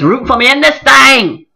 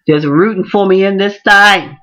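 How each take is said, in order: First: Higher, louder call on this thing; rousing call-back; preacher call. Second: Said in the usual way. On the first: Real, not acted. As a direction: belt it like a preacher.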